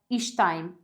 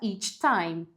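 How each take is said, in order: First: 'Each' ends with a soft 'sh' sound. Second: 'Each' ends with a full 'ch' sound. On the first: "ela vai fazer um som de sh" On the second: "faça each time"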